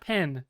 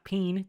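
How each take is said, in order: First: The vowel is a short 'e' sound. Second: The vowel is a long 'ee' sound. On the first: The speaker calls it right. "You got to say the E correctly. It's like pen" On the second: The speaker calls it wrong. "not peen"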